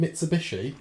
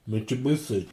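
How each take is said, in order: First: Said in the usual way. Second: "Mitsubishi" said as Mitch-ubishi, with ch and th sounds; wrong pronunciation. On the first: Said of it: "Do you mean Mitsubishi?". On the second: Retold or imitated. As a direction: lightly say "Mitsubishi" as mitch-uh-boo-thee. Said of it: "he thinks it's pronounced Mitsubishi".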